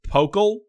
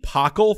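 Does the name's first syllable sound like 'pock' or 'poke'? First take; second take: poke; pock. First: The first syllable sounds like 'poke'. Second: The first syllable sounds like 'pock'. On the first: The speaker calls it right. "It's Pokle" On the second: The speaker calls it wrong. "I just said Pockle. That is apparently not the way you say it"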